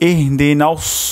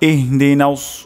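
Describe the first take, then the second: First: The s is emphatic with rounded lips. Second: The s is emphatic with rounded lips.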